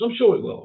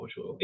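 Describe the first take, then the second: First: Said in the usual way. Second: Softer murmured repeat of "I'm sure it will"; half-swallowed "I'm sure it will" under the breath; quiet echo. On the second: Real, not acted. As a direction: say it again, much softer, to yourself.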